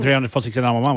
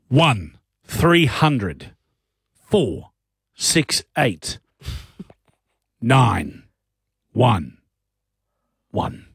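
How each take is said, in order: First: The number is said fast. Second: The number is said slowly.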